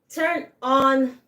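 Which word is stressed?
on. The stress falls on the second word. To switch something on. "when we're saying to turn something on, allumer"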